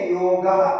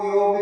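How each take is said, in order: First: The word ends with a full final vowel. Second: The word ends on the consonant, no final vowel. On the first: This is the full Sanskrit form. "ऐसा संस्कृत में पूरा उच्चारण" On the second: This is the everyday Hindi form. "हलंत करके कहते हैं"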